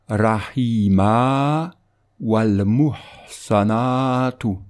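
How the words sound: There is a pause after the first word. "Si on fait une pause"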